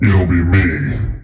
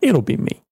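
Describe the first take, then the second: First: It is said in a deep, threatening voice. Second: It is said in a normal voice.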